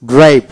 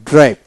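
The two takes are said the same way.

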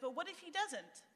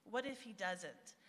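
First: Anxious doubt. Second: Healthy, trusting. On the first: Retold or imitated. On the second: Shown as a demonstration. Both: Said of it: "but in a healthy way".

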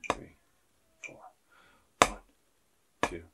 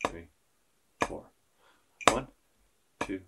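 The two takes are said the same way.

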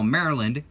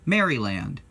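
First: "Maryland" said in two syllables, MARE-land; West Coast pronunciation. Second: "Maryland" spelled out as MARE-ee-land, with a full last "land"; three-syllable Maryland. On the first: Vlogger demoing the West Coast Maryland, two quick syllables. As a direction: run "Maryland" together as MARE-lund. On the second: Vlogger contrasting his own Maryland, three clear syllables. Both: Shown as a demonstration. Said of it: "they call Maryland".

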